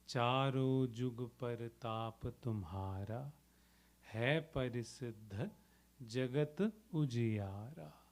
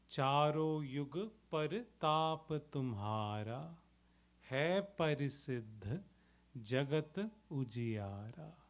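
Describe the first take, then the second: First: The second word begins with a j sound. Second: The second word begins with a y sound. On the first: "Charo Yug or Jug, both are okay" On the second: "Charo Yug or Jug, both are okay"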